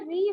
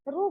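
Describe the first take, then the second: First: The letter is said with an 'i' vowel. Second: The letter is said with a 'u' vowel. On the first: This is how people in North India say it. "उत्तर भारत में री" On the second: This is how people in South India say it. "दक्षिण में रू बोलते हैं"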